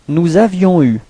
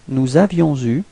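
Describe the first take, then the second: First: Avions and eu are said without a linking z. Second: Avions and eu are joined with a linking z.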